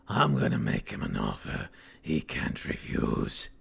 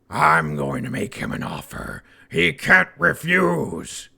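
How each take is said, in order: First: It is said in a put-on gangster voice. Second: It is said in a plain, normal voice.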